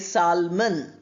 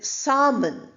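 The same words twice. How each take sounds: First: The L sound is pronounced. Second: The L sound is silent. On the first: The speaker calls it wrong. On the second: The speaker calls it right.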